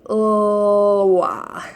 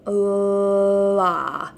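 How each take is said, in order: First: The L sound is not held at all. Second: The L sound is held for a long time. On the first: The speaker calls it wrong. "if they're not able to hold that initial L sound" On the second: The speaker calls it right. "we want that L sound to be really long. Hold it for a long time"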